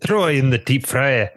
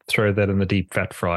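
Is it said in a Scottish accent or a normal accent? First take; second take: Scottish; normal. First: It is said in a put-on Scottish accent. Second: It is said in the speaker's normal accent.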